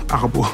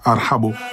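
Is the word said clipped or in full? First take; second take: clipped; full. First: The word is clipped to two short syllables. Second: The word is said in full with every syllable. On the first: This is how French speakers mangle the word. The speaker calls it wrong. "ils n'arrivent pas à prononcer, ils disent arbo" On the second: This is the original form of the word. The speaker calls it right. "c'est difficile à, pour un Français de dire ar arhabo"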